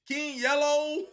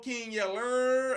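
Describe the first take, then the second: First: The name ends in an open O sound. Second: The name ends in an R sound. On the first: The speaker calls it right. "It's supposed to be a O and a W right there" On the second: The speaker calls it wrong. "Like that motherfucking R"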